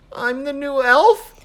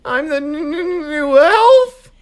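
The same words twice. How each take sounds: First: Slow, high confused question; puzzled question. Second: Stuttering with cold; teeth chattering. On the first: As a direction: ask it in confusion. Chris puzzles over the phrase. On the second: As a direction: shiver and stammer the words. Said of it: "he repeated through chattering teeth". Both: Acted.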